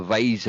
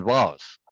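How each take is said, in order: First: "vase" rhyming with "days"; vase as "vayz". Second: "vase" with an open AH vowel; vase as "vahz". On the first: Contrasting English and American, "vase" as "vayz". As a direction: say "vase" with a long AY vowel. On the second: Contrasting English and American, "vase" as "vahz". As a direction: say "vase" to rhyme with "Oz". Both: Shown as a demonstration. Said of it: "English American".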